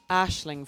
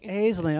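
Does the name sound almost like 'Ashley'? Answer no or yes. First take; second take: yes; no. First: The name sounds almost like 'Ashley'. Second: The name does not sound like 'Ashley'. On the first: The speaker calls it right. "I'd like Ashling. At least to be fully named" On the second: The speaker calls it wrong. "that's how people say it who are saying wrong"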